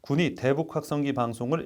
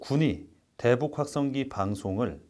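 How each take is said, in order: First: The phrase flows in one breath without pauses. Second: The phrase is broken up by pauses. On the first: The speaker calls it right. "그냥 한 호흡에 쭉 가는 거를 저는 추천을 드릴 것 같아요" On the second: The speaker calls it wrong. "이런 거를 이렇게 끊어가는 거"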